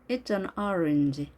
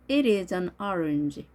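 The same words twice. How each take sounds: First: "It's an orange" with It is cut to It's; short contraction. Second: Said in the usual way. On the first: Shown as a demonstration. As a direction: link "It's an" into "itsan". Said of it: "이렇게 짧게 하는 것을". (It's an orange를 축약해서) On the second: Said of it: "이렇게 부드럽게 발음을 합니다".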